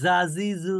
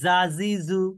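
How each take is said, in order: First: The j sound is light and thin. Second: The j sound is light and thin.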